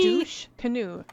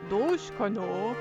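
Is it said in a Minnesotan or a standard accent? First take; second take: standard; Minnesotan. First: It is said in a standard accent. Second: It is said in a Minnesotan accent.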